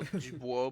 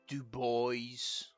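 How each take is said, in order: First: It is said with a French pronunciation. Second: It is said with an American English pronunciation. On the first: This is how the original name is pronounced. The speaker calls it right. "which should be well" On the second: This is how locals actually say it. The speaker calls it wrong. "but it's but it's"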